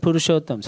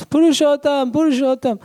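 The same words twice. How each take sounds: First: Said in the usual way. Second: Much higher and louder, calling across the house; shouting for the servant. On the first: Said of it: "she shouted for". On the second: Retold or imitated. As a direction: yell the name down the hall for help. She shouted for.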